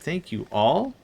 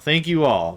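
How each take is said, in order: First: The voice rises at the end like a question. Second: The voice falls at the end like a statement.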